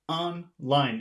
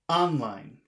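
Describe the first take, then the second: First: Both syllables carry equal stress. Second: The stress is on the first syllable only. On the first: The speaker calls it right. "It seems like both syllables are accented" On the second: The speaker calls it wrong. "if you say it just on the first word"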